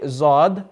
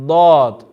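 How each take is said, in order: First: The first consonant is a buzzing z sound. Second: The first consonant is a heavy d sound. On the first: The speaker calls it wrong. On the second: The speaker calls it right.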